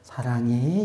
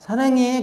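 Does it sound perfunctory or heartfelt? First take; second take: heartfelt; perfunctory. First: It sounds warm and heartfelt, full of feeling. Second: It sounds flat and perfunctory, without feeling.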